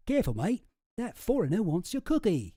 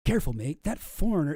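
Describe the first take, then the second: First: Higher, louder, hammed-up Aussie accent; put-on Australian twang, pitched up; bad Australian accent. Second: Said in the usual way. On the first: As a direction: attempt an Australian accent, badly and loudly. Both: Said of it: "Can't do an Australian accent".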